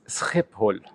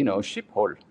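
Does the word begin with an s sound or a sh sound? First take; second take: s sound; sh sound. First: The word begins with an s sound. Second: The word begins with a sh sound. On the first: The speaker calls it right. "But in Dutch, it's Schiphol" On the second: The speaker calls it wrong. "In German, it would be"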